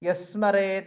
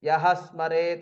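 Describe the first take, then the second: First: The two words run together without an h. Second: The two words are said separately with an h. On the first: "ಒಟ್ಟಿಗೆ ಹೋದಾಗ ಯಸ್ಮರೇತ್ ಎಂಬುದಾಗಿ ಆಗುತ್ತೆ" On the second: "ಯಹ ಸ್ಮರೇತ್ ಅಂತ ಇದೆ"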